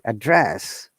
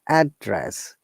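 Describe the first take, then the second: First: The stress is on the second syllable. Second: The stress is on the first syllable. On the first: It is used as a verb. "When you're using as a verb, we're stressing the second syllable" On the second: It is used as a noun. "We're stressing in the first syllable"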